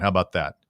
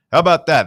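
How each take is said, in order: First: Said in the usual way. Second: Louder and higher, pumping it up; emphatic hype. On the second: Real, not acted. Host hyping the show to listeners, louder and higher. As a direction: sell it to the listeners with energy.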